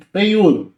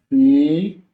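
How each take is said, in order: First: Said in the usual way. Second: Feiura said as fei-u-ra, each syllable apart; syllables split apart. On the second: Shown as a demonstration. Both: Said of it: "Vai marcar, ó".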